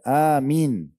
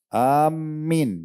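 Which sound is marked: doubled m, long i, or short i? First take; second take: short i; doubled m. First: The vowel after the m is short. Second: The m sound is doubled. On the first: "mimnya dengan ya seperti satu kesatuan, dipendekkan" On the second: "mimnya pakai tasydid, itu nggak boleh"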